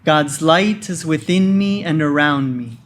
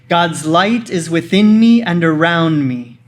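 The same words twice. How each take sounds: First: It is said in a normal speaking voice. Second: It is said in a loud, energetic voice. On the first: "in a normal speaking voice" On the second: "with a loud, energetic voice"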